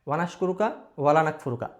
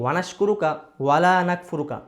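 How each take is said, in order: First: The vowel after 'wala' is cut short. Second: The vowel after 'wala' is drawn out. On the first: We are indeed ungrateful to you. The speaker calls it wrong. "এক আলিফ টান না দিয়ে যদি পড়া হয়" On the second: We are not ungrateful to you. The speaker calls it right. "এখানে ওয়ালা এর পরে এক আলিফ টান আছে।"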